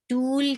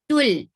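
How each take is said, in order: First: The vowel is held long. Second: The vowel is kept short. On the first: The speaker calls it wrong. "No, it's not long" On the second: The speaker calls it right. "It's tul"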